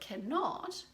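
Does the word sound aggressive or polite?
polite. The word is said softly and politely. The speaker is being courteous. The speaker calls it right. "I am saying it more polite"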